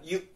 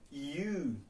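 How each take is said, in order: First: The vowel is short and not rounded. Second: The vowel is long, tense and rounded. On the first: The speaker calls it wrong. "bukan you" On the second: The speaker calls it right. "tense sama rounded ya, dia sedikit ngebulat gitu"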